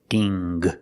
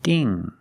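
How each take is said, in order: First: A hard g is sounded at the end. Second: It ends in ng with no hard g. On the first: The speaker calls it wrong. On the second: The speaker calls it right.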